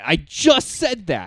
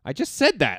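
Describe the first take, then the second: First: "I just said that" slow, louder, "just" hit hard; emphatic repeat. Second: Louder, pointed comeback; exasperated. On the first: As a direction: lean on "just" slowly. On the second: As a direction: call him out for not listening. Exasperated at cohost. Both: Real, not acted.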